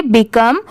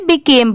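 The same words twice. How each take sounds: First: बिकम said "bi-KUM" with a short u; short vowel ending. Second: बिकेम said "bi-KAYM" with a long vowel; long a ending. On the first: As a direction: rhyme the end of बिकम with "come". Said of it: "ओ लिखा रहा तो इसे क्या पढ़ेंगे". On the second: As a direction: rhyme the end of बिकेम with "name". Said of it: "ये रहा तो इसे बिकेम पढ़ेंगे". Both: Shown as a demonstration.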